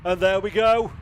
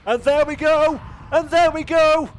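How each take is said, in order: First: Building call, louder already; rising excitement. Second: High, loud victory yell; shouting finish call. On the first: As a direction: start the finish call with lift. Race finish call begins. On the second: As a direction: roar it as the flag drops. Winning car takes flag. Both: Real, not acted.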